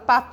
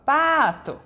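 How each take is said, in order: First: The stress is on the second syllable. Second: The first syllable is stressed and drawn out. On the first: The speaker calls it wrong. "eu não falo pato, não falo assim" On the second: The speaker calls it right. "eu falo pato"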